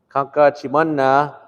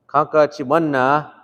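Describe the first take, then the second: The two takes are said the same way.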